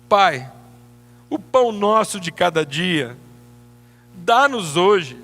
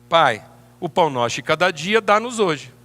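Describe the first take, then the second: First: It is said with a hopeful, pleading inflection. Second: It is said with a sure, confident inflection. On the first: The one praying only hopes to receive it. The speaker calls it wrong. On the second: The one praying is certain it will be given. The speaker calls it right.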